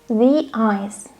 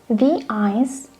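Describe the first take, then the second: The two takes are said the same way.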